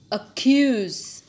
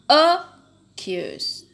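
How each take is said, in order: First: The stress is on the second syllable. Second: The stress is on the first syllable. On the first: The speaker calls it right. "tapi accuse" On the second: The speaker calls it wrong. "Jadi bacanya bukan accuse"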